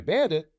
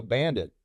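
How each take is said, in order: First: Bandit? asked higher, rising in disbelief; surprised question. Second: Said in the usual way. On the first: Retold or imitated. Pilot echoes the Bandit call, higher surprised question. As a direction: echo Bandit with a raised questioning lift. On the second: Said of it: "and they go".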